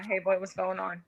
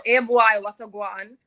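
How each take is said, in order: First: Said in the usual way. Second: Loud Jamaican patois greeting; Jamaican accent. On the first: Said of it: "So, yeah". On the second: Shown as a demonstration. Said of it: "What did you say when you said it?".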